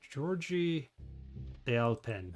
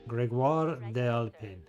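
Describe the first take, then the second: First: The first name sounds like English 'Georgie'. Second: The first name sounds like French 'Grégoire'. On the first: The speaker calls it wrong. "Probably said that wrong" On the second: The speaker calls it right. "That's the way to say it"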